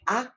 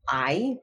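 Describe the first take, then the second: First: The vowel is a single steady sound. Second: The vowel glides through two sounds. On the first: "So a going" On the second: "because it's two sounds"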